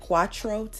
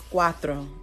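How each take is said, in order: First: It is said with a hard English t. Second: It is said with a soft, th-like t. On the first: The speaker calls it wrong. "it looks like cuatro to me in English" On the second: The speaker calls it right. "but it's cuatro in Spanish"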